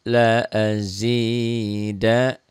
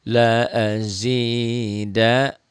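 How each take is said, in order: The two takes are said the same way.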